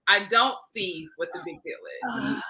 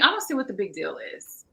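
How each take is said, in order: First: The sentence is said at a slower pace. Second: The sentence is said at a quicker pace. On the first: The speaker calls it right. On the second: The speaker calls it wrong.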